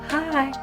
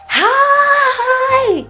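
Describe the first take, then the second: First: It sounds timid and scared. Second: It sounds exaggerated and over-the-top.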